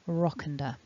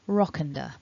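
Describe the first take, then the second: First: The words blend together into one reduced chunk. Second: The words blend together into one reduced chunk.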